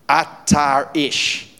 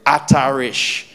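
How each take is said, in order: First: "Atar ish" said slowly in Hebrew, stress on Atar; Hebrew phrase. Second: "Atar ish" again, a touch quicker, falling at the end; Hebrew repeated. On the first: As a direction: pronounce "Atar ish" as Hebrew, slow and weighty. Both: Shown as a demonstration. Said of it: "That's the Hebrew".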